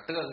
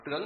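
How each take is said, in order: First: Tương held on an even tone; tương with level tone. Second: Tướng lifted sharply in pitch; tướng with rising tone. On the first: Teacher gives students the proper reading, tương in level tone. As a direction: say tương level, without lifting it. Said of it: "đọc là tương chứ không đọc là tướng". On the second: Teacher warns against this reading, tướng with rising tone. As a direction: make tướng climb in a sắc tone. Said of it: "không đọc là tướng được". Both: Shown as a demonstration.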